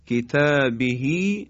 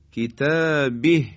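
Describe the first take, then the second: First: کتابه read kitabihi with full ending; کتابه flowing on with rising tune; connected form. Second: کتابه shortened in the pause; pausal form. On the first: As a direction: keep hi on کتابه, slowly. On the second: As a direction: stop on کتابه, dropping the final vowel. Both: Shown as a demonstration.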